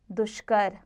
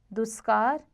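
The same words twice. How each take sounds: First: दुष्कर with sh; correct sh sound. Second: दुष्कार with s for sh; wrong s sound. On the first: Teacher corrects it, दुष्कर with sh. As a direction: say दुष्कर as dushkar. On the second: Teacher shows the error, दुष्कार with s. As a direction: say दुष्कार as duskar. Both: Shown as a demonstration. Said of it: "स संबंधी".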